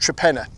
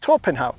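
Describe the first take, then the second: First: It sounds like 'Tre-pen-na', unlike the spelling. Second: It sounds like 'Tor-pen-how', following the spelling. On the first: The speaker calls it right. "it's pronounced Trepenna" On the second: The speaker calls it wrong. "you'd say, well, this is Torpenhow, but it's not"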